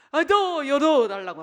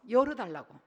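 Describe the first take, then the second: First: Slow, louder annoyed 또; 또 stressed, stretched and loud; exasperated parent. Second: Said in the usual way. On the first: Retold or imitated. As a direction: lean hard on 또 in weary irritation. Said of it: "아빠 하는 거예요".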